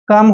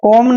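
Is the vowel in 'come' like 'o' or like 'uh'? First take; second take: uh; o. First: The vowel is a short 'uh' sound. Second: The vowel is an open 'o' sound. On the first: The speaker calls it right. "O M E को अम पढ़ना है" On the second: The speaker calls it wrong. "कॉम नहीं पढ़ना है"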